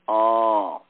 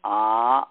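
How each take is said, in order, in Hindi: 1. स्वर बहुत देर तक खींचकर बोला जाता है। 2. स्वर लगभग दुगुनी देर तक बोला जाता है। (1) "प्लुत" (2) "दीर्घ"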